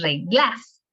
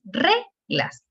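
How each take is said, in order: First: "reglas" as re-GLAS, slow, rising to the end; wrong stress on GLAS. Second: "reglas" as RE-glas, slow, first syllable punched; stress on RE. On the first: Teacher rejecting the wrong form, "reglas" stressed on GLAS. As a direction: punch the last syllable of "reglas" as a mistake. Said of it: "no es reglas". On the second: Teacher proving the tonic syllable, "reglas" stressed on RE. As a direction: draw out RE in "reglas", let glas fall. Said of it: "la sílaba tónica". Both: Shown as a demonstration.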